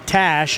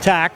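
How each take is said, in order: First: The name ends with an sh sound. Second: The name ends with a k sound. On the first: The speaker calls it right. "one pronunciation that we had wrong for Andy Tash" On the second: The speaker calls it wrong. "not Tack"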